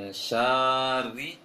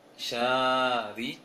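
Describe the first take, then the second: Both takes have the same delivery.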